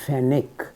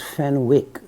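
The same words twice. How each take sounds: First: It is said the way the English say it. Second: It is said in a non-English way. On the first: The speaker calls it right. "in England they pronounce it as Fenwick" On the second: The speaker calls it wrong. "I used to pr pronounce this as Fenwick"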